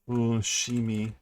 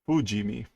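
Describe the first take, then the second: First: The middle consonant is a voiceless 'sh' sound. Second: The middle consonant is a voiced 'j' sound. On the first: The speaker calls it wrong. "I guess that's not how you say it" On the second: The speaker calls it right. "Let's try"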